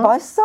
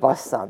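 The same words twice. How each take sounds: First: The pitch rises at the end. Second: The pitch falls at the end.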